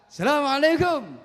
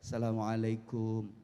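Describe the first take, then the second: First: It is said in a high, raised pitch. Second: It is said in a lower, softer pitch. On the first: It is a bold greeting with raised hands. "Dengan nada tinggi mengangkat kedua tangan" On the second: It shows humble respect while bowing. "Di kita assalamualaikum sambil membungkuk. Ini gaya orang Indonesia"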